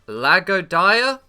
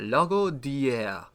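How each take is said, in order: First: The name is said with an English accent. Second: The name is said with a French accent.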